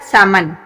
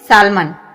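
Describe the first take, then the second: First: The L sound is silent in the word. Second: The L sound is pronounced in the word. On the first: The speaker calls it right. "इसमें एल जो है वो silent हो जाएगा" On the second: The speaker calls it wrong. "सामन हम क्या बोलते हैं?"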